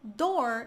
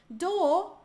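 First: It is said with an American accent. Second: It is said with a British accent. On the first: "no americano" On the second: "no britânico"

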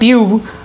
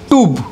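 First: The final e is sounded. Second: The final e is silent. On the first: The speaker calls it wrong. "It is not tube" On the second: The speaker calls it right. "rather than it is tube"

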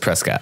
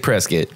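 First: It is the pronunciation used by outsiders. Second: It is the pronunciation used by local residents. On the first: This is how people from elsewhere say it. "Everybody else says Prescott" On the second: This is how people from the town say it. "So the locals say Prescott"

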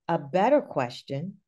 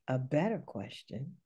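First: It is said with more voice. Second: It is said softly, with a smile.

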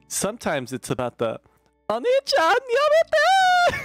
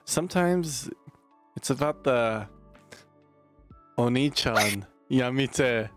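First: It is said in a put-on anime voice. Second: It is said in his normal voice.

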